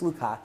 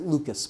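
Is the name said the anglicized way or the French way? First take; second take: French; anglicized. First: The name is said with a French pronunciation. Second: The name is said with an anglicized pronunciation. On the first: The speaker calls it right. "but it's" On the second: The speaker calls it wrong. "sometimes people mispronounce it"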